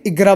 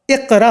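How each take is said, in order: First: "इगरा" with a hard g; spoken Arabic pronunciation. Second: "इकरा" with a qaf; Quranic pronunciation. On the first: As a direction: say "इगरा" with g in place of qaf. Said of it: "अरबी में इगरा बोला जाता है". ("इगरा" में क़ाफ़ की जगह गाफ़) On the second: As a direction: say "इकरा" with the Quranic q sound, not g. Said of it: "Quran में लिखा है ना". ("इकरा" में क़ाफ़ का उच्चारण) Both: Shown as a demonstration.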